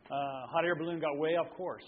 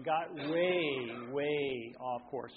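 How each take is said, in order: First: Said in the usual way. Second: "way off course" said slow, leaning on "way"; drawn-out stress on way. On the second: Shown as a demonstration. Preacher stretching "way" for his congregation, slow stress. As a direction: stretch out "way" to show how far. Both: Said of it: "I mean, got way, way off course".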